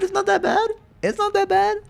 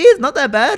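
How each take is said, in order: First: Very high squeak; squeaky voice. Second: Very high, loud squeaky line. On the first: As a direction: hit "It's not that bad" in falsetto. Higher squeaky repeat. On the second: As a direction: squeak it out playfully. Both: Pretend.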